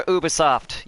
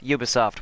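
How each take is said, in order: First: Ubisoft starting with "oo"; alternative pronunciation. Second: Ubisoft starting with "you"; alternative pronunciation. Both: Shown as a demonstration. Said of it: "however the fuck you pronounce that".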